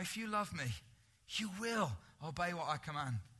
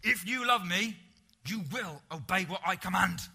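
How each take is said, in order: First: It sounds gentle and warm, like an invitation. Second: It sounds stern, like scolding children.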